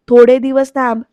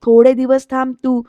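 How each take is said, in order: First: The louder second take, insisting; annoyed husband pressing the point louder; irritated, louder. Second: Firm but held back; first, restrained take; irritated. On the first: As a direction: repeat it louder and harder. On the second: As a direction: tell her to wait, restrained annoyance. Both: Retold or imitated. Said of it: "सुधाकरची चिडचिड होतीये".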